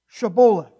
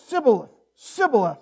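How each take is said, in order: First: The word begins with an sh sound. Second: The word begins with an s sound. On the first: The speaker calls it right. "now say Shibboleth" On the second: The speaker calls it wrong. "I can't pronounce it right either"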